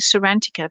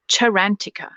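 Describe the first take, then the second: First: The word begins with an S sound. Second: The word begins with a CH sound. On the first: The speaker calls it wrong. "I've been saying it wrong all the time. I've been saying Sarantica" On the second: The speaker calls it right. "in Italian, it makes it a ch"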